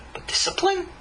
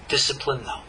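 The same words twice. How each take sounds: First: "discipline" lifted high as a question; questioning rise. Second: "Discipline" low and falling, then a flat "no"; firm falling answer. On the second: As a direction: drop "Discipline" low and settle it. Answering his own question. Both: Shown as a demonstration.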